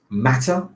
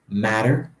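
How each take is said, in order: First: It is said with a British pronunciation. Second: It is said with an American pronunciation.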